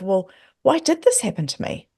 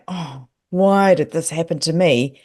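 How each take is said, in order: First: It sounds curious and wondering. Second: It sounds despairing and upset.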